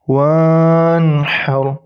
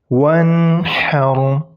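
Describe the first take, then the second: First: The vowel after w is drawn out long. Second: The vowel after w is kept short. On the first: The speaker calls it wrong. "Jadi bukan dibaca seperti ini" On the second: The speaker calls it right. "jadi tidak dipanjangkan huruf waw fathahnya"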